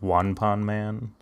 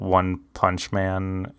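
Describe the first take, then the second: First: The middle word ends without a 'ch' sound. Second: The middle word ends with a 'ch' sound. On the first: This is the Japanese way of saying the title. "that's how they pronounce it because like they don't do. they don't do the cha" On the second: This is the English way of saying the title. "we call it One Punch Man because that just sounds better in English"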